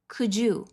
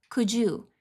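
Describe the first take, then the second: The two takes are said the same way.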